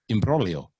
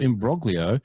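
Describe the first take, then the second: First: The g is silent. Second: The g is clearly sounded. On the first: The speaker calls it right. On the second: The speaker calls it wrong.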